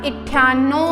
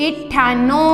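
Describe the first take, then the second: Both takes have the same delivery.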